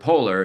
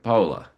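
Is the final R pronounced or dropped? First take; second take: pronounced; dropped. First: It is said with the final R. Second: It is said Australian-style, without the final R.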